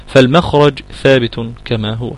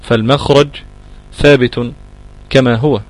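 First: Said in the usual way. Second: فالمخرج, ثابت, كما هو each set apart by a pause; word by word dictation. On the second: Shown as a demonstration. Teacher repeats the rule slowly, word by word for students. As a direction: space out فالمخرج ثابت كما هو for note-taking.

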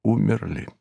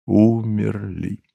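First: Soft, falling, understated grief; quiet grief. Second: Slow, drawn-out single word; lingering grief. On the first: Narrator tells that all are dead, in quiet grief. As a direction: let the word drop quietly. Grieving everyone who has died. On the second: Narrator dwells on the deaths of all, slowly grieving. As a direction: stretch the word out mournfully. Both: A narrator's reading.

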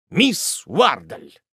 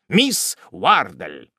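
First: Slow, drawn-out, louder lover's cry; sighing exclamation. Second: Repeated cry. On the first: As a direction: sigh her name with longing. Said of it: "воскликнул он, испустив глубокий вздох". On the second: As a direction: say her name again, heavier. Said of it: "повторил мистер Топман". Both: A narrator's reading.

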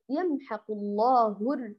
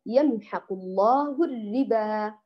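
First: يمحق الله الر- with the first ر of الربا made heavy; mock wrong reading. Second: يمحق الله الربا recited slowly with the ر of الربا all light; slow careful recitation, الربا with a light ر; correct recitation. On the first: Teacher imitating students' common error, slow. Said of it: "فالبعض ماذا يقول". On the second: Teacher giving the correct model to students, slow. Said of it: "لو أتينا مثلًا لكلمة الربا". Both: Shown as a demonstration.

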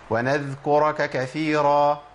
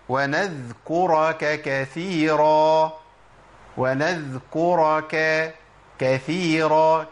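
First: Chanted "ونذكرك كثيرا" hurrying over the two k syllables; rushed kafs. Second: Slow chanted "ونذكرك كثيرا", each kaf fully timed; drawn-out "ونذكرك كثيرا", giving each kaf its vowel; two clear kafs. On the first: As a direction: blur "ka-ka" in "ونذكرك كثيرا" so the kafs half vanish. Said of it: "كأني جري عليهم بالحركات". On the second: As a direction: recite "ونذكرك كثيرا" with both k syllables distinct. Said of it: "كافين هم ورا بعض". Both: Shown as a demonstration.

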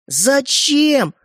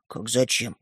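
First: High, drawn-out outcry of disbelief; shocked demand. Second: Low, soft echoed question; meek puzzlement. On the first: Brothers asking why he gave it away, shocked. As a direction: wail the question, pitched way up. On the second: Стёпа explaining the gift to the brothers, meek. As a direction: answer the outcry small and quiet. Boy answers their outcry meekly. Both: Acted.

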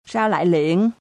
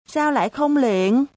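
First: Mildly surprised. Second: Put-on higher, wide-eyed child asking "Sao lại không liệng?" back; far more surprised. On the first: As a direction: ask "liệng" with only mild surprise. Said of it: "ngạc nhiên gấp mấy lần thầy nó". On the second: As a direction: throw the question back, much more amazed. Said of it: "hỏi lại bằng giọng ngạc nhiên gấp mấy lần thầy nó". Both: A narrator's reading.

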